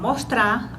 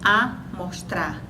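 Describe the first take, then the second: First: The word begins directly with an m sound. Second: The word begins with an added a vowel.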